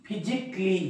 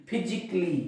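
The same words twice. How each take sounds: No difference in how they are said.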